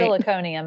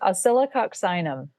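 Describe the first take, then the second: First: The word ends with the sounds -conium. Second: The word ends with the sounds -coccinum. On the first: The speaker calls it wrong. "I used to say oscilloconium, and that's not right" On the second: The speaker calls it right. "It's pronounced oscillococcinum"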